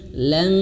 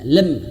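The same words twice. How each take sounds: First: The word is said softly with a gentle hum. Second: The word is cut off abruptly and forcefully. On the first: The speaker calls it right. "tapi lam, lembut" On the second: The speaker calls it wrong. "jangan dihentak ya, ... nah tidak lam"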